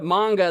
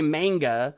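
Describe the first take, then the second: First: It is said with American vowel sounds. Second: It is said with British vowel sounds. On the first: "instead of manga" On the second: "they say manga"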